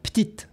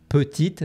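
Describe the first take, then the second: First: The first vowel is dropped from the word. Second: Every vowel in the word is pronounced. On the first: "devient petite" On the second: "Petite devient"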